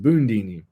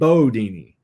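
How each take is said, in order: First: The first syllable is Boon, with an n. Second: The first syllable is a plain Bo sound. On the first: The speaker follows the written spelling. "if you go by the spelling of the word, it's pronounced Boondini" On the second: The speaker belongs to the inner circle. "Ali had that Louisville, Kentucky accent, so he pronounced it Bodini"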